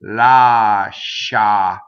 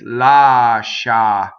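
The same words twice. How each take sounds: No difference in how they are said.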